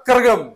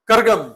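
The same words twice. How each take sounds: The two takes are said the same way.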